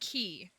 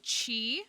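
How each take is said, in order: First: The name sounds like the word key. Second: The name begins with a ch sound. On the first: "I say mister Key because it's Q I" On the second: "A lot of people say Chi, which also does make sense"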